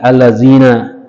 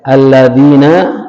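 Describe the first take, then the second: First: The middle consonant is a 'z' sound. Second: The middle consonant is a soft 'dh' sound. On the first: The speaker calls it wrong. "dal diganti zai" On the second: The speaker calls it right. "dal diganti zai"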